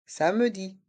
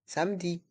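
First: "Samedi" in three syllables, sa-me-di; middle E sounded. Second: Said in the usual way. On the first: Shown as a demonstration. Teacher showing the E sound in "Samedi", middle vowel clearly sounded. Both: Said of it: "on entend le son E".

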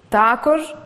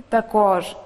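First: Також stressed on ТА, rising; також, with the weight on the first syllable ТА. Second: Також stressed on КОЖ, falling; також, with the weight on the last syllable КОЖ. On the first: Teacher showing learners double stress, ТА stressed. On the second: Teacher giving the second correct variant, КОЖ stressed. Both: Shown as a demonstration. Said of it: "Деякі слова мають подвійний наголос".

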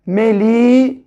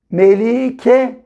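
First: "Melike" split as a long "Meli", a pause, then "ke"; syllable by syllable. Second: "Melike" blended into one careful word; syllables joined. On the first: Teacher joining syllables for beginners, "Melike" said in pieces. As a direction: sound out "Melike" with a gap before "ke". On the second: Teacher showing the finished name, "Melike" joined up. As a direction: say "Melike" without the long break before "ke". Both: Shown as a demonstration. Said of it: "Birleştirelim".

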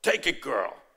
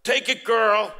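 First: Lower-pitched, imitated Italian accent; firm Italian father urging, imitated. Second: Put-on louder, higher, insistent Italian-accented urging. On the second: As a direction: urge her forcefully, imitating an Italian accent. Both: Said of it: "he said in his Italian accent".

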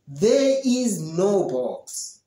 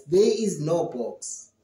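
First: Slow clear answer. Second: Said in the usual way. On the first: Shown as a demonstration. Teacher models the correct answer slowly for students. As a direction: spell out each word slowly. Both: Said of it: "but you say".

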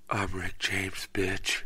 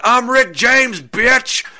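First: Low, soft, understated delivery; hushed deadpan catchphrase. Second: High, loud whooping shout; comic yell. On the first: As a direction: drop the catchphrase quietly, as if stunned. Same catchphrase, now deadpan after finding body. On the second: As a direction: holler it like a catchphrase down the street. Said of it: "running back and forth through the streets yelling". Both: Acted.

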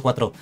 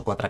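First: Said in the usual way. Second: Cuatro said like Catalan "quatre", ending in a; Catalan-flavoured slip on cuatro. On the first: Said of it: "he dicho cuatro". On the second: Real, not acted. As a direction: cuatro with a Catalan vowel, kwatra. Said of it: "eh, yo hablando en catalán, he dicho cuatro".

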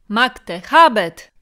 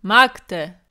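First: Loud cry of Magte, habet ringing out; arena cheer shouted at full voice; crowd shout. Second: Single loud Magte with a long fall; Caesar's cry. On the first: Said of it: "zawołało kilka głosów". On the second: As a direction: call out Magte, egging them on. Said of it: "powtarzał". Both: Acted.

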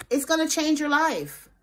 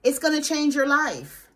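First: Said in the usual way. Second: "It's gonna change your life" said slowly, each word weighted, stress on "gonna"; slow it down and lean on "gonna"; "gonna" stressed in a deliberate slow restatement; slow emphatic repeat. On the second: Shown as a demonstration. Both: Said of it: "Hold on".

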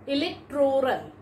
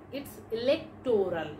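First: Electoral. with the stress on the "to", ih-lek-TROR-al; Electoral. said the wrong way, as ih-lek-TROR-al; common mispronunciation. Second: Electoral. with the stress on the "lec", ih-LEK-tor-al; electoral. said the right way, as ih-LEK-tor-al; correct pronunciation. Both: Shown as a demonstration. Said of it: "No, it's not electoral".

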